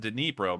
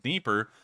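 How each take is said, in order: First: The name is pronounced as Dnipro. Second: The name is pronounced as Dnieper. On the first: This is the local form of the name. The speaker calls it right. "It's the Dnipro, much like the city of Dnipro" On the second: This is the Russian form of the name. The speaker calls it wrong. "I believe that's the Russian pronunciation"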